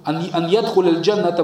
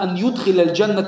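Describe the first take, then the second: First: The verb starts with a 'ya' sound. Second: The verb starts with a 'yu' sound. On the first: The seventy thousand are the ones who enter. The speaker calls it wrong. "если бы было что ان يدخل الجنه было бы 70000 فاعل" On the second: God causes them to enter Paradise. The speaker calls it right. "здесь будет правильно"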